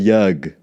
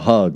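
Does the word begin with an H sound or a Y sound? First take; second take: Y sound; H sound. First: The word begins with a Y sound. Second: The word begins with an H sound.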